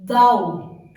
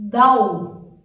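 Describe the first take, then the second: First: ضوء said again, loud and clear; Arabic pronunciation. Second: ضوء said loud and clear; Arabic pronunciation. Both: Shown as a demonstration. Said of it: "A second example is".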